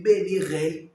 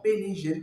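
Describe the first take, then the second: First: "B ni re" with a French throat R; common R mistake. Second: "B ni je" with a zh-like R; corrected R. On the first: Coach showing learners' error, throaty R in "re". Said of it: "beaucoup de personnes disent". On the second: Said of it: "Non, B ni je". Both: Shown as a demonstration.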